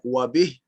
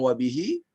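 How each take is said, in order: First: The word ends on a bare consonant. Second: The word ends with a short vowel. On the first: "atau kita bilang" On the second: "kita boleh be bilang"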